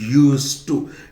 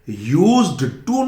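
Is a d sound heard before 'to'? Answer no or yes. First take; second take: no; yes. First: No d sound is pronounced before 'to'. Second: A d sound is pronounced before 'to'. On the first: The speaker calls it right. "ये डी का pronunciation नहीं होता" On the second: The speaker calls it wrong. "यूज्ड टू नहीं बोलेंगे"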